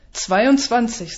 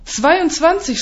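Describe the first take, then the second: First: Slow, self-satisfied announcement; proud. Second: High-pitched, outraged echo; shouted disbelief. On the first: Colleague reports his count to the narrator, proud. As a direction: announce the tally proudly, drawn out. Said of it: "sagt er stolz". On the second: Narrator echoing a colleague's boast, incredulous cry. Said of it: "schreie ich". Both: A narrator's reading.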